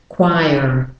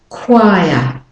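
First: The final R sound is pronounced. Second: The final R sound is dropped.

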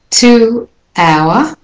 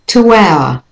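First: The words are said separately, without a linking sound. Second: The words are joined by a linking w sound.

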